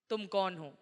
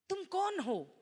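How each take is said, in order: First: The pitch stays flat or falls at the end. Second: The pitch rises at the end like a question. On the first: It does not sound like a question. The speaker calls it wrong. "ऐसे नहीं" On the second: It is asked as a real question. The speaker calls it right. "वहां सवाल"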